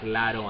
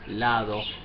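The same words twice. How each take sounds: First: The middle consonant is a quick r-like tap. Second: The middle consonant is a soft th-like sound. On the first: The speaker calls it wrong. "you will not risk pronouncing it like lado and toro" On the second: The speaker calls it right. "say lado, todo"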